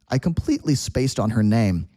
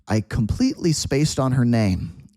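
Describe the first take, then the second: First: It is read at a fast speed. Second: It is read at a medium speed. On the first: "let's read the sentence again at a quick native speed" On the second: "Let's turn up the speed to a medium"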